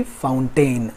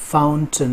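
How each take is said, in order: First: "फाउंटेन" as fown-TAIN, full final vowel; mistaken pronunciation. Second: "फाउंटेन" as FOWN-tun, weak second vowel; correct pronunciation. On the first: Teacher showing learners the mistake, "फाउंटेन" as fown-TAIN. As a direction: draw out "tain" at the end of "फाउंटेन". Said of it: "ना कि". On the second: Teacher showing the right way, "फाउंटेन" as FOWN-tun. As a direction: shorten the last syllable of "फाउंटेन" to "tun". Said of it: "ना कि फाउंटेन". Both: Shown as a demonstration.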